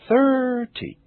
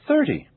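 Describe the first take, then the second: First: The stressed vowel is stretched out very long. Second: The stressed vowel has a normal length. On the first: "I will exaggerate them first" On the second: "Now I'll say them naturally"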